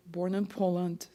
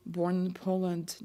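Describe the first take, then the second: No difference in how they are said.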